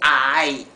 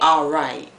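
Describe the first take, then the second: First: The R sound is dropped from the word. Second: The R sound is clearly pronounced. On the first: "they say alright" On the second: "They don't say alright"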